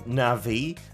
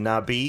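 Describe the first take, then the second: First: The middle consonant is a V sound. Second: The middle consonant is a B sound.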